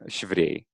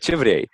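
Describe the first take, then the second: First: The phrase begins with a 'sh' sound. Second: The phrase begins with a 'ch' sound. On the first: The setting is informal, like at home. "like she, instead of "che,"" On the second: The setting is formal. "if we knew that there's like a formal setting"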